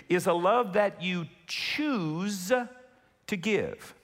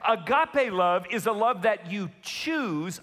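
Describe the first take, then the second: First: Slow, deliberate, each word spaced; said really slowly. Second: Said in the usual way. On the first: Shown as a demonstration. Pastor repeating for the congregation, really slowly. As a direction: lay it down slowly so it sinks in. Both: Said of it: "I wanna say this really slowly".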